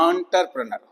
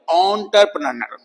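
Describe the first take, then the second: First: एंटरप्रेन्योर with an ah sound at the start; American pronunciation. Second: एंटरप्रेन्योर with an on sound at the start; British pronunciation. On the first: Teacher giving the American form, with an ah sound. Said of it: "American में बोलते हैं". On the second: Teacher giving the British form, with an on sound. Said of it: "British English में बोलते हैं इसको". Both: Shown as a demonstration.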